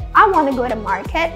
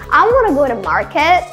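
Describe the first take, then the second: First: Want to is reduced to one word, wanna. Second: The same.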